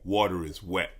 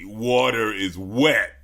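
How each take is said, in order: First: It is said in a plain, sincere tone. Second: It is said in a mocking, sarcastic tone. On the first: The statement is meant literally. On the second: The statement seems not meant seriously.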